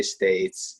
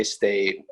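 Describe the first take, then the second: First: "states" drawn out slowly with final s; states, plural. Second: "state" ending on a plain t; state, singular. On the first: Explaining the Pennsylvania word, slow "states" with an s. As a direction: stretch "states" and sound the closing s. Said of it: "we say states". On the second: Explaining what Iowans call the tournament, "state" without an s. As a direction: say "state" with no final s. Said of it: "state versus states argument". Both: Shown as a demonstration.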